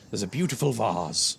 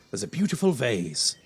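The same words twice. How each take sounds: First: It is said in a posh, upper-class accent. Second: It is said in an ordinary, everyday accent.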